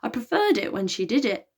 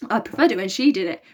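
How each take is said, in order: First: Croaking. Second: Hoarse, croaky voice; croaking. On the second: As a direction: croak it out weakly. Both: Acted. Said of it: "croaked Elliot".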